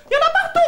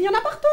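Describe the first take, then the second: First: Higher exclamation. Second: Said in the usual way. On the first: Acted. Vendor exclaims to Jacqueline, higher and louder. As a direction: pitch jumps up on partout. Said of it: "repeated higher, louder". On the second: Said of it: "repeated louder".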